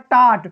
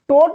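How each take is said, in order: First: The vowel is an open 'ah' sound. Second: The vowel is a rounded 'oh' sound. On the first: The speaker calls it right. "बीच में आया है ओ तो ये हो जा रहा है टाट" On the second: The speaker calls it wrong. "टोट नहीं पढ़ रहे हैं"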